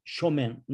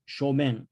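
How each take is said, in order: No difference in how they are said.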